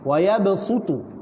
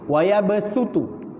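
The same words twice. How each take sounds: First: The s is a heavy, emphatic s sound. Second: The s is a plain, light s sound. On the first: "boleh dibaca dengan riwayat bunyi huruf sad" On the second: "Satu dibaca dengan huruf sin"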